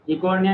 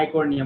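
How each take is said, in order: First: इकोर्निया with a short "i" at the start; wrong pronunciation. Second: इकोर्निया opened with an "eye" sound, aai-kornia; correct pronunciation. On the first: Teacher quoting the student's mistake, इकोर्निया said as "ih-kornia". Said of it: "इकोर्निया नहीं बोलते". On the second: Teacher giving the student the right form, इकोर्निया said as "eye-kornia". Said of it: "इकोर्निया बोलते हैं". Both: Shown as a demonstration.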